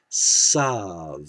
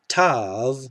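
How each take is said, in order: First: The word begins with an s sound. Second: The word begins with a plain t sound. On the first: "people pronouncing this as Sav" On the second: This is the modern Israeli pronunciation. "Tav is always t"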